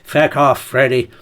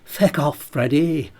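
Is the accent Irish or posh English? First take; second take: Irish; posh English. First: It is said in an Irish accent. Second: It is said in a posh English accent. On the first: The speaker calls it right. "It should be an Irish voice" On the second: The speaker calls it wrong. "Why am I doing it in a posh voice?"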